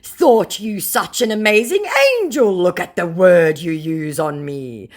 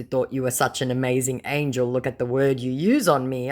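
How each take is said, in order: First: Loud, raised, slowing put-on protest; hammed-up scammer hurt and indignant; mock scammer. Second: Said in the usual way. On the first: Scammer reproaching the target's insult, mock indignation. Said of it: "said the scammer".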